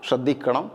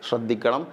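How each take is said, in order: Both takes have the same delivery.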